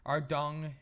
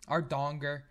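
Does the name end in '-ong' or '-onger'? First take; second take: -ong; -onger. First: The name ends in an '-ong' sound. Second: The name ends in an '-onger' sound. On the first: The speaker calls it right. "I think it's pronounced" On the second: The speaker calls it wrong. "I always call it Ardonger because I can never remember how to pronounce it right"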